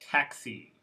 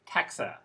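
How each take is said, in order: First: The final vowel is a clear ee sound. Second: The final vowel is a reduced uh sound. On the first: The speaker calls it right. "Here there is no schwa" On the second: The speaker calls it wrong. "should sound like this"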